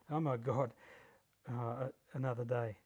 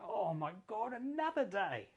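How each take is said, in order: First: It sounds dreading and miserable. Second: It sounds delighted and excited.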